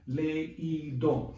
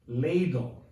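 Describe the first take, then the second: First: The two vowels are split into separate syllables. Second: The two vowels blend into one syllable. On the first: The speaker calls it right. "three syllables" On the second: The speaker calls it wrong. "without the accent mark, it would be pronounced ladle"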